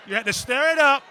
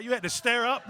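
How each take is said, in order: First: Louder, higher, with a falling "up"; stir it up, louder and higher. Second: Said in the usual way. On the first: Shown as a demonstration. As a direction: push it out loud, and "up" falls.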